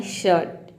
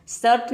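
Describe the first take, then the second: First: "शर्ट" said as "shuht", R dropped; silent R. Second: "शर्ट" wrongly said as "sart", R sounded; mispronounced with R. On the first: Teacher gives learners the correct form, "शर्ट" with silent R. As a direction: start "शर्ट" with SH and skip the R. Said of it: "आपको बोलना है शर्ट". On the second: Teacher warns learners off a mistake, "शर्ट" with sounded R. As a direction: tap the R in "शर्ट", like "surt". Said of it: "शर्ट नहीं बोलना है आपको". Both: Shown as a demonstration.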